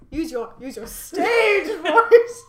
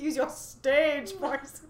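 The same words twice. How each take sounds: First: Slow words broken by loud laughter; cracking up mid-line; laughing quote. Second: Said in the usual way. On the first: Retold or imitated. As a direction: laugh through the quote as you say it. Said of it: "And Amy goes". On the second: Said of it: "I was like".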